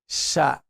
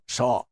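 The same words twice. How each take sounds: First: The sha sound is light and thin. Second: The sha sound is heavy and full. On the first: The speaker calls it right. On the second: The speaker calls it wrong. "and not sha"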